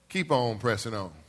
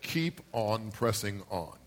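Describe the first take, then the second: First: It is said with extra spin and energy. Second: It is said plainly, without extra energy. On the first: The speaker calls it right. "You got to put a little English on, a little spin on that bad boy" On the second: The speaker calls it wrong. "that's not how you say it"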